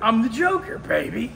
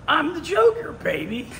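First: It is said in a lower voice. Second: It is said in a higher voice.

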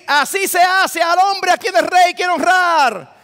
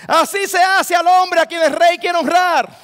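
Both takes have the same delivery.

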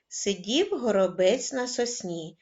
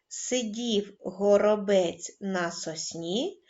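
First: It is spoken at a moderately faster pace. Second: It is spoken at a calm, slow pace. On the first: "кожного разу пришвидшуючи темп" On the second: "Починаємо читати спокійно"

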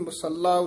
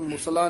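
First: The middle l sound is held long. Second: The middle l sound is short. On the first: The speaker calls it right. "ये भी मुसल्ला उच्चारण करना है" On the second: The speaker calls it wrong. "इसनु मुसला नहीं कह देना"

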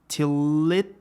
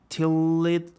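Both takes have the same delivery.

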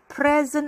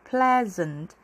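First: The L is said with a curled tongue. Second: The L is a light tap, tongue uncurled. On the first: The speaker calls it wrong. "Have a pleasant 아니고요" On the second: The speaker calls it right. "혀를 골리지 마시고 위에 그냥 올라갔다가 내려오는 건"

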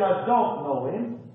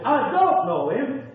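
First: It is said plainly, without extra force. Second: It is said with strong, forceful emphasis.

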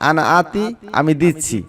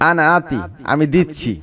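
Both takes have the same delivery.

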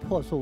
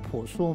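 First: The first syllable is pronounced po. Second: The first syllable is pronounced pu. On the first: The speaker calls it right. "你知道为什么要读破树" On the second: The speaker calls it wrong. "为什么不读[name]吗"

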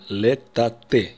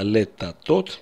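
First: The word ends with an 'eh' sound. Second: The word ends with an 'ot' sound. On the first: The speaker calls it right. "мы произнесем летате. Именно так мы будем говорить" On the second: The speaker calls it wrong. "произносят иногда летатот... Это неправильно"

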